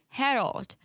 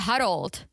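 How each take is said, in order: First: It is said with a native-sounding accent. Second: It is said with a foreign accent. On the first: This is how the speaker talks now. "now the new me says" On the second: This is how the speaker talked years ago. "The old me would say Harold, like Misha"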